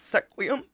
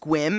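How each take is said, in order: First: The name is sounded out from its spelling. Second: The name is said the usual local way. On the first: "I'd be like, that's Sequium" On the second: "if you didn't know the place Squim"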